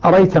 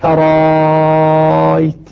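First: The second glottal stop is dropped entirely. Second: The second glottal stop becomes a very long 'a'. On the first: "يحذف الهمزة الثانية منها الكسائي" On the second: "مع المد المشبع 6 حركات"

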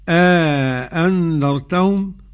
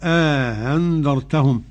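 First: The second hamza is fully pronounced. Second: The second hamza is softened and eased. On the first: "بالإدخال على التحقيق" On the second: "والتسهيل"

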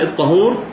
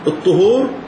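First: The first vowel is an open a. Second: The first vowel is a rounded u. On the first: It names the substance one purifies with. "بالفتح" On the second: It names the act of purification. "بالضم"

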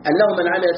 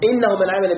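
First: The first word begins with an 'a' vowel. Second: The first word begins with an 'i' vowel. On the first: The clause explains what the mercy is. "لو قلت قراءة بالفتح" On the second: The clause starts a new statement. "أما لو كسرتها ستكون جملة استئنافية"

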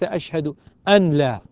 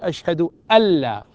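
First: The n is pronounced clearly before the l. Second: The n merges into the following l sound. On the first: The speaker calls it wrong. "فتظهر النون مع اللام" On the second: The speaker calls it right. "المطلوب أن تدغم"

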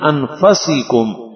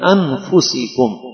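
First: The vowel after f is a. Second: The vowel after f is u. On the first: The messenger came from the noblest lineage among you. "اس آیت کو پڑھا فا کے زبر کے ساتھ" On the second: The messenger came from among yourselves. "اس کی جو مشہور قرأت ہے"

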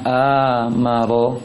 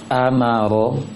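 First: The sounds are drawn out long. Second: Each sound is short and quick. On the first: The speaker calls it wrong. "jangan baca amaro" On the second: The speaker calls it right. "diusahakan untuk bacaan pendek, cepat, tidak berlama-lama hurufnya"

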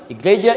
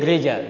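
First: The word begins with an i vowel sound. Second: The word begins with a g consonant. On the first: This is the original borrowed form. "semakin banyak diucapkan, biasanya semakin berubah pelafalan" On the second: This is the form used today. "Sampai hari ini"

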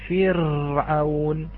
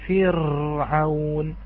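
The two takes are said the same way.

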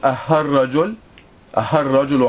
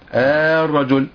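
First: The opening hamza is softened toward an h sound. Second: The opening hamza is stretched into a long a. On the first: "ننطقها كأنها الهاء" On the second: "نحولها إلى حرف مد، أي نحولها إلى الألف"

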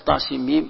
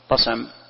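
First: Each letter name is said separately and lengthened. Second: It is read as one short word. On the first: The speaker calls it right. "ينطق كل حرف على حدة" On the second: The speaker calls it wrong. "ما تقول طسم ما تنطق هكذا"

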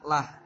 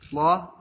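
First: The L sound is light and thin. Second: The L sound is heavy and full. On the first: The vowel before it is kasrah. "bisa lah" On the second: The vowel before it is dhammah or fathah. "bisa Allah"

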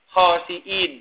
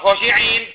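First: The word is said with a glottal stop. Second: The word is said without a glottal stop. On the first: The speaker calls it right. "Pakai hamzah khosiin" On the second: The speaker calls it wrong. "bukan khosiin"

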